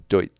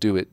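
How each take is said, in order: First: It is said as one blended syllable. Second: It is said as two separate syllables. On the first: The speaker calls it wrong. "I thought it was "Doit" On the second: The speaker calls it right. "which is titled "Do It"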